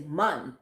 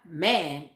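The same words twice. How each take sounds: First: "man" said with an open o, like mon; patois "man" as mon. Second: Said in the usual way. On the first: Shown as a demonstration. Explaining her mom's patois to viewers, "man" said as mon. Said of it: "it's man, M O N". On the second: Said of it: "But not man".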